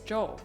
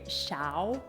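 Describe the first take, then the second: First: The name starts with a 'j' sound. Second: The name starts with a 'sh' sound. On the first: The speaker calls it right. "but it's Jaw" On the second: The speaker calls it wrong. "everything I've ever known and learned about the Roman alphabet makes me want to say Xiao"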